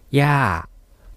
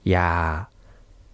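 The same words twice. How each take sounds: First: The word is said on a falling tone. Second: The word is said on a low tone. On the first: It means paternal grandmother. "それからもう一つ下がる声調でやー" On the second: It means don't. "これを低い声調でやーというふうに言うと"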